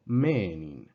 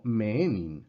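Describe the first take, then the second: First: Menin as ME-e-nin, long E stressed at its start, then falling; correct first-part accent. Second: Menin as me-E-nin, rising onto the second half of the long E; wrong second-part accent. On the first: Teacher correcting the wrong version, first-part accent. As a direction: hit the first half of the long E in menin, slowly. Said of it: "la primera parte es la que está acentuada". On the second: Teacher warning students what not to say, wrong accent. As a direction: misplace the stress late in the long E of menin. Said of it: "no menin". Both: Shown as a demonstration.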